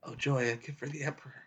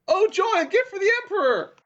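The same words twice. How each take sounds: First: It is said very toned down, low energy. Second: It is said with exaggerated, high energy.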